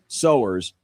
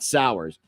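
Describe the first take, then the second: First: The first vowel sounds like 'so', as in mowers. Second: The first vowel sounds like 'ow', as in hours. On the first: The speaker calls it right. "I'm used to seeing S O W E R S being pronounced sowers" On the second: The speaker calls it wrong. "not sours"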